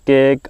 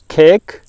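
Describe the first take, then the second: First: The k sound is soft and weak. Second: The k sound is hard and strong. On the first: The speaker calls it wrong. "Do not read them as" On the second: The speaker calls it right. "because they have got hard pronunciation"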